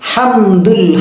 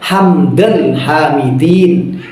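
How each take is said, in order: First: The first word ends with a 'u' vowel. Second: The first word ends with an 'a' vowel. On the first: The speaker calls it right. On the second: The speaker calls it wrong.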